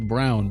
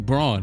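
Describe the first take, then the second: First: The vowel sounds like the word 'brown'. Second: The vowel sounds like the word 'brawn'. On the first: This is how broadcasters say the name. The speaker calls it wrong. "they say Brown" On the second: This is how the name is spelled. The speaker calls it right. "it's clearly Braun"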